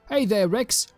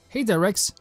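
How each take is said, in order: First: It is said in an old-style RPG character voice. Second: It is said in the speaker's natural voice.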